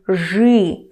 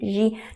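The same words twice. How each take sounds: First: The consonant is hard, with a 'y'-like vowel. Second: The consonant is soft, with a clear 'ee' vowel. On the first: The speaker calls it right. "I'm pronouncing it still with y" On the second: The speaker calls it wrong. "impossible to pronounce it like"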